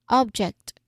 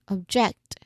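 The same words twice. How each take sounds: First: The stress is on the first syllable. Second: The stress is on the second syllable. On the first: "from the first syllable" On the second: "to the second syllable"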